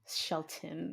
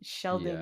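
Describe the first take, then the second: First: The middle consonant is a T sound. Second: The middle consonant is a D sound. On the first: "it was spelled with a T" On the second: "like with a D"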